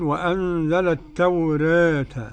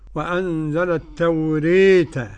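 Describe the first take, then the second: First: The vowel after r is between a and e. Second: The vowel after r is fronted toward i. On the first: "التخليل" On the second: "كيف تكون الإمالة"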